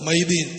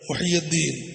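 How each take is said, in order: First: The name is said in a shortened, contracted form. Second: The name is said in its full, unreduced form. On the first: The speaker calls it wrong. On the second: The speaker calls it right.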